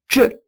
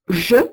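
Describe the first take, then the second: First: It begins with a 'dzh' sound. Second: It begins with a plain 'zh' sound. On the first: This is the old pronunciation. "se prononçait je" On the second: This is the modern pronunciation. "ce que nous prononçons aujourd'hui je"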